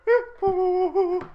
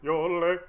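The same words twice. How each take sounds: First: Sung, yodel the word high, jumping up into falsetto; sing-yodel it to tease; sung, mock yodel. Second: Said in the usual way. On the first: Shown as a demonstration.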